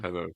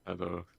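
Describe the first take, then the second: First: It is said in a lively, energetic way. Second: It is said in a flat, low-energy way.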